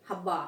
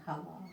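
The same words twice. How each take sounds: First: हब्बा with lips pressed, a hard b sound; हब्बा said wrongly, lips touching; wrong pronunciation. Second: हवा with soft v, lips not touching; हवा said right, no lip closure; correct pronunciation. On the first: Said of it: "हब्बा बोलेंगे तो गलत हो जाएगा". (हब्बा गलत उच्चारण, होंठ मिलाकर ब बोलना) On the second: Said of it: "सही शब्द क्या है?". (हवा शुद्ध उच्चारण, होंठ बिना छुए व) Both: Shown as a demonstration.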